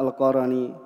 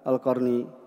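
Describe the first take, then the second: First: An a vowel follows the r sound. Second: No vowel follows the r sound. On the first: The speaker calls it right. "ini bacaan yang kita ketahui adalah Al-Qarani" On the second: The speaker calls it wrong. "mungkin yang biasa didengar adalah Al-Qarni"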